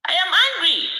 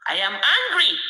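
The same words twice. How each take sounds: First: I am angry repeated louder and higher; real anger. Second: Angry. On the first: To viewers at dawn, restating his anger, louder and higher. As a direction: let the anger burst out on angry. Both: Real, not acted.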